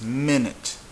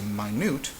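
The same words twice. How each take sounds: First: The stress is on the first syllable. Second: The stress is on the second syllable. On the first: "pronounce it on the second to last syllable like this" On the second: "you would have to put it, mark it"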